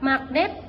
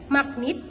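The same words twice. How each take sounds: First: The second vowel is an e sound. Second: The second vowel is an i sound. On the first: The speaker calls it right. "Lafalan bakunya terdiri dari kata magnet" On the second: The speaker calls it wrong. "fonem E dilafalkan menjadi I"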